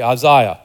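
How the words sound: The name is said in a British accent.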